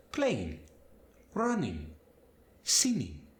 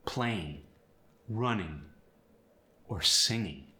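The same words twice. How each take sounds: First: Spanish accent. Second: Said in the usual way. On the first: Shown as a demonstration. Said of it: "the G is gonna just kinda fade". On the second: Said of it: "For instance".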